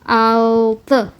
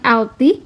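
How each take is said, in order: First: The final vowel is a back unrounded 'ı'. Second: The final vowel is a front 'ee'. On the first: The speaker calls it right. "tapi altı gitu ya" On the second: The speaker calls it wrong. "Bukan alti"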